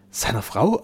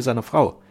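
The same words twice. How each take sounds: First: "Frau" lifted in a rising question; questioning echo. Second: Said in the usual way. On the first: A narrator's reading. Duke echoes his son's news, questioning. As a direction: echo "Seiner Frau?" with the pitch climbing at the end.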